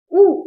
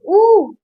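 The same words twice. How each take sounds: First: ऊ said briefly; a quick ऊ, not stretched; short u. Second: ऊ drawn out; long u. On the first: Teacher showing less effort, ऊ kept short. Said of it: "इसमें थोड़ा कम बोला जा रहा है". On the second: Teacher showing more effort, ऊ held long. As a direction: stretch ऊ for extra time. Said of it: "इसमें थोड़ा ज्यादा बोला जा रहा है". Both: Shown as a demonstration.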